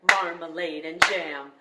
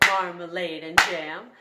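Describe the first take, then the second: The two takes are said the same way.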